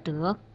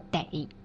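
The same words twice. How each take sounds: First: The syllable has a rising tone. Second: The syllable has a dipping tone. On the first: It means to obtain. "患得患失的得" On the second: It means must. "你这病得治的得"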